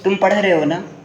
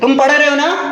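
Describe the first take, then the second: First: It is said in a plain, level statement tone. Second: It is said with a questioning tone. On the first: It states that the listener is studying. "ये normal tone" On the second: It asks whether the listener is studying. "Question वाले tone में बोल रहे हो"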